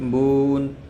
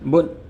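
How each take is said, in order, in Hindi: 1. अक्षर धीरे-धीरे खींचा और लंबा किया जाता है। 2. अक्षर एक झटके से अचानक कट जाता है। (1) "आराम से" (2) "झटके से"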